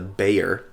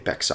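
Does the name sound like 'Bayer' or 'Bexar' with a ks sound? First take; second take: Bayer; Bexar. First: It is said like 'Bayer', with no ks sound. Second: It is said with a ks sound, 'Bexar'. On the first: The speaker calls it right. "this knife is called the Bayer" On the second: The speaker calls it wrong. "I was mispronouncing it at first"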